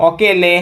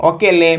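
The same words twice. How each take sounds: The two takes are said the same way.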